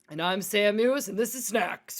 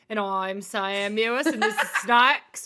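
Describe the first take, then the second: First: It is spoken in a formal news-anchor voice. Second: It is spoken in an Australian accent. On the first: "do it in, like, news anchor form" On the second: "do it in your Australian accent"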